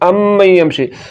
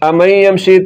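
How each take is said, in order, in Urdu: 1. میم مشدد ہے اور روکی جاتی ہے۔ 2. میم متحرک ہے، روکی نہیں جاتی۔ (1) "میم مشدد ہے" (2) "یہ میم مشدد نہیں بلکہ میم متحرک ہے"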